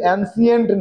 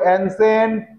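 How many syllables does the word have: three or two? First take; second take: three; two. First: It is said with three syllables, an-si-ent. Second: It is said with two syllables, an-sent. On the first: The speaker calls it wrong. "উচ্চারণটা কিন্তু অ্যানসিয়েন্ট না" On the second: The speaker calls it right. "অ্যানসেন্ট বলো"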